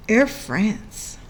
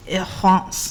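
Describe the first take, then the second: First: Said in the usual way. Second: "Air France" said the French way, nearly "ee Fronce"; "Air France" with a French r and a nasal "Fronce"; French-style Air France. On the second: Retold or imitated. Copying how the airline ad says its name, in French style. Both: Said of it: "They said it like that".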